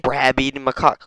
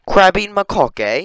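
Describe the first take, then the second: First: Said in the usual way. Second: High, loud British lilt; mock British accent. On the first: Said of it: "You can't have fruit-eating macaque". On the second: Mocking the monkey's name, mock British accent. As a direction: say it in cheeky British, rising at the end. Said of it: "It's like the only British monkey".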